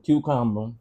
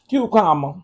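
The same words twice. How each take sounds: First: It is said in the speaker's ordinary voice. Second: It is said in an imitated character voice.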